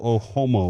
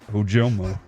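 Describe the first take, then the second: First: The middle consonant sounds like an H. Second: The middle consonant sounds like a J. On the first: The speaker calls it wrong. "I thought the J could, could be pronounced as an H. And I've mispronounced it" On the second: The speaker calls it right. "much like A J. Brown, the J is pronounced"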